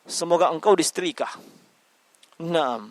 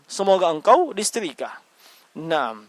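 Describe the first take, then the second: The two takes are said the same way.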